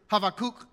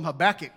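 First: Habakkuk said "hah-vah-KOOK", with a v and long oo; original Hebrew pronunciation. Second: Habakkuk said "huh-BACK-ick", Southern style; Southern pronunciation. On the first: Preacher gives the prophet's real name, Habakkuk pronounced "hah-vah-KOOK". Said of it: "it doesn't sound real Southern". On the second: Preacher renames the prophet for Southerners, Habakkuk as "huh-BACK-ick". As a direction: stress the BACK in Habakkuk, ending in a short "ick". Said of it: "That sounds Southern, right?". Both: Shown as a demonstration.

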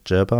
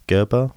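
First: "Gerber" begun with a soft g as in "gem"; soft G variant. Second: "Gerber" begun with a hard g as in "go"; hard G variant. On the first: Host offers another reading of the surname, "Gerber" with a soft g. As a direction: say "Gerber" with a j sound at the start. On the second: Host reads a listener's surname aloud, "Gerber" with a hard g. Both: Shown as a demonstration. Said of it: "not sure how you pronounce it".

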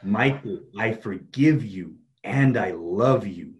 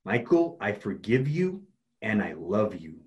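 First: Very slow, emphatic affirmation; even more conviction. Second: Slow, deliberate affirmation; with conviction. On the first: Coach models stronger self-forgiveness, slow and emphatic. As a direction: draw out each phrase and drive it home. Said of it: "say it with even more conviction". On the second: Coach models self-forgiveness for client, slow and convinced. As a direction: say it slowly and mean it. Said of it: "Now say it with conviction". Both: Shown as a demonstration.

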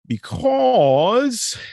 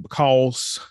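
First: A high squeak on "because", jumping well above his voice and louder; squeaky high because. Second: A light Southern country twang on "because", vowel drawn out as "becawlz"; country accent. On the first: Host warming up before his country accent. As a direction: toss out "because" in a mock squeaky voice. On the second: Podcast host hamming up a country accent for listeners. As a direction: say "because" with a mild country drawl. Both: Shown as a demonstration. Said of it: "put on my good country accent".

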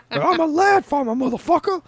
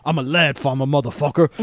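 First: High squeaky laugh-through line; laughing quote. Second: Said in the usual way. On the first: Retold or imitated. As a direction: giggle the line out, far higher. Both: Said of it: "looks up and goes".

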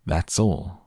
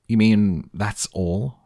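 First: Understated, assured confirmation; proud answer. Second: Drawn-out, louder disbelief, rising at the end; disgusted. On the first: Wonka confirms his result to Mike, proudly. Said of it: "gazing proudly at the result". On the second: Mike questions Wonka's tiny result, disgusted. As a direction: push it out slowly as a scornful question. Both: A narrator's reading.

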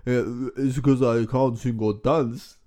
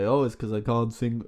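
First: Put-on slow, heavy Transylvanian accent. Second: Put-on Transylvanian accent. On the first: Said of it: "That was worse". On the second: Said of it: "I'm doing the Transylvanian voice".

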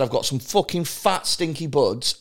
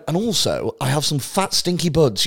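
First: Offhand Scouse dealer's pitch; lightly acted Scouse accent, selling weed. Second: Lightly put-on posh English accent; mock-posh gent offering weed. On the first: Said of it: "the power of accents". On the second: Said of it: "Posh, posh for fucking art".

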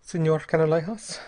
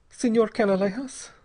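First: Politely addressing him, pitch raised; polite, slightly lifted form of address. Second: Put-on higher-pitched girl, drearily answering; dreary, higher voice for the girl. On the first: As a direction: open with a courteous address. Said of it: "said Bell politely". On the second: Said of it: "said the girl drearily". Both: A narrator's reading.

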